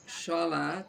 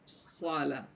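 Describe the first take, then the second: First: The first consonant sounds like 'sh'. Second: The first consonant is a heavy emphatic 's'. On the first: The speaker calls it wrong. "Bukan sholah, mengarah kepada huruf shin" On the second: The speaker calls it right. "tapi sholah"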